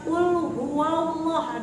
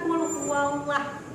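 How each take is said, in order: First: The L in Allah is thick and heavy. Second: The L in Allah is thin and light. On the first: The speaker calls it right. "Kenapa Bunda membacanya qul huwallah" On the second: The speaker calls it wrong. "Bukan qul huwallah"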